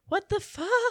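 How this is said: It is said as a frightened whimper.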